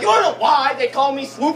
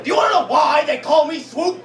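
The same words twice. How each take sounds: First: Higher, louder mock version of the stranger; replaying the Swoop line; the same stranger, lightly voiced again; imagined homeless man. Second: A loud, higher mock street guy; hamming up the rambling stranger; imitating a homeless man asking about Swoop. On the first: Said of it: "I like to imagine he's like". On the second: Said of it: "the guy locked eyes with me and said".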